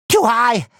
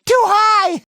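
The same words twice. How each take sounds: First: Said in the usual way. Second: High-pitched cry of alarm; alarmed shout. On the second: Acted. Hero alarmed at the height, high panicked shout.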